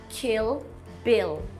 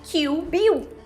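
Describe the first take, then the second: First: The final L sounds like a real L. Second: The final L sounds like a U vowel. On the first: The speaker calls it right. "quando a pronúncia no inglês é Kill Bill" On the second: The speaker calls it wrong. "muita gente fala Kill Bill"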